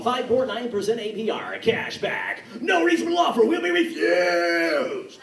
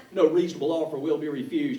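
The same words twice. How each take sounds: First: Loud, slow pushy car dealer shout; hard-sell it like a dealer on TV; obnoxious car ad. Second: Said in the usual way. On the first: Retold or imitated. Car dealer yelling his ad at viewers, obnoxious and loud. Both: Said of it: "obnoxious car commercials".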